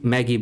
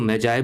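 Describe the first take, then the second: First: It sounds like 'maggie', with a hard g. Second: It sounds like 'may-jai', with a soft j. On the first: "कोई मैगी बोलेगा" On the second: "कभी कोई इसको मैजाए बोलेगा"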